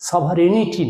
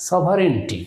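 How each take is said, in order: First: সভারেনিটি with an extra full vowel, "so-va-re-ni-ti"; wrong pronunciation. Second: সভারেনিটি shortened to "so-va-ren-ti"; corrected pronunciation. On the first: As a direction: sound the "ni" in সভারেনিটি as its own syllable. (সভারেনিটি-র "নি" আলাদা করে উচ্চারণ) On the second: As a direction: run "ren" straight into "ti" in সভারেনিটি. (সভারেনিটি-কে "সভারেন-টি" করে উচ্চারণ) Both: Shown as a demonstration. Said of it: "সভারেনিটি না".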